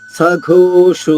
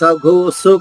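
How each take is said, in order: First: It has an aspirated gh and an sh sound. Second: It has an aspirated gh but a plain s. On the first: The speaker calls it right. "ఒత్తుఘ అనమాట. ఓకారంతో సఘోషో మళ్ళా షో కూడా ఓకారంతో" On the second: The speaker calls it wrong. "సఘోసు కాదు"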